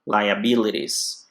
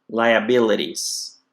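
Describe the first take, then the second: The two takes are said the same way.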